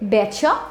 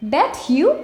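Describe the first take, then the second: First: The t and y merge into ch. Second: The t and y sounds stay separate.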